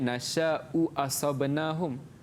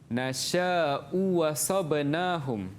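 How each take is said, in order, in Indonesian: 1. Kata kedua dimulai dengan hamzah. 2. Kata kedua dimulai dengan bunyi w. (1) "Asal dia" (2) "kita ibdalkan kepada huruf mad yang bersesuaian"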